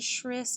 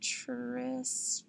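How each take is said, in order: First: It begins with a sh sound, as in ship. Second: It begins with a ch sound, as in chip. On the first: "If I tried the other one, Shris doesn't sound right" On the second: "that doesn't sound right"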